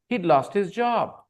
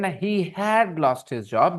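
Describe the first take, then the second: First: 'Had' is contracted onto 'he' as 'he'd'. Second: 'Had' is pronounced as a separate full word. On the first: "they put this had with he, and it sounds he'd lost his job" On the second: "This had is not said separately"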